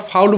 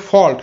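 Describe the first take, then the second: First: "ফাউল" with an "au" glide as in "out"; wrong vowel. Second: "ফল্ট" with a pure "aw" vowel; correct vowel. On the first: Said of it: "ফল্টকে আমরা ফাউল বলবো না". ("ফাউল", আউ ধ্বনি দিয়ে ভুল উচ্চারণ) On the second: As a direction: say "ফল্ট" with অ, no ow glide. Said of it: "এর উচ্চারণটা হবে ফল্ট". ("ফল্ট", অ ধ্বনি দিয়ে উচ্চারণ) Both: Shown as a demonstration.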